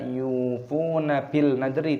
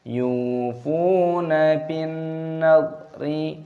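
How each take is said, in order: First: An 'l' sound is heard before the 'n'. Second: The 'l' merges into a held, nasal 'n'. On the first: The speaker calls it wrong. "bukan dibaca yufuna bil nadri" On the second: The speaker calls it right. "tapi dimasukkan"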